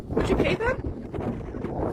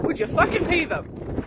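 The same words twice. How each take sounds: First: Drawn-out near-whisper, pointed; slow hushed question. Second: Said in the usual way. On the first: Real, not acted. Ranting to viewers about tax, slow hushed rhetorical question. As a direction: lean in and ask it slowly under the breath.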